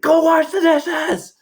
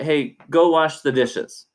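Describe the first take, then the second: First: It is screamed at the loudest volume. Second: It is said calmly at normal volume.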